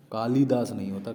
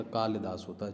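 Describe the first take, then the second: First: कालिदास with long vowel, said louder; wrong form stressed. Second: Said in the usual way. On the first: Shown as a demonstration.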